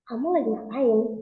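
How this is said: The question sounds suspicious and wary. The asker suspects something is going on. "saya lagi curiga"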